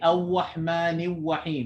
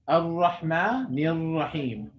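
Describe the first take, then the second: First: The r is too weak and sounds like w. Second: The r is a light tap with slight vibration. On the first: The speaker calls it wrong. "If you put too little force" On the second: The speaker calls it right. "It has to be in the middle"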